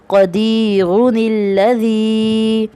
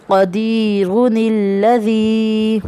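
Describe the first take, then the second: The two takes are said the same way.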